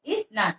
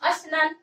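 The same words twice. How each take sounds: First: इस नान with a short इ before स; common reading. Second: अस्नान said as one word, अ joined straight to स्न; teacher's model reading of अस्नान; correct reading. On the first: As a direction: say इस नान, the way most people read it. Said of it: "क्या बोलते हैं हम लोग?". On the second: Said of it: "हम लोग को तो पढ़ना ये चीज चाहिए". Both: Shown as a demonstration.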